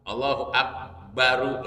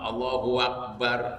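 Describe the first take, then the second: First: The final r is followed by a u vowel. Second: The final r is said without a vowel. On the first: The speaker calls it wrong. "ru-nya dipasih" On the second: The speaker calls it right. "Yang pertama Allahu Akbar"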